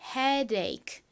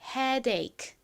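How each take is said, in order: The two takes are said the same way.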